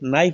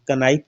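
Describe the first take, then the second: First: No k sound is heard before the n. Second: A k sound is heard before the n. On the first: The speaker calls it right. "नाइफ बोलते हैं, के silent है" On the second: The speaker calls it wrong. "का नाइफ तो नहीं बोलते"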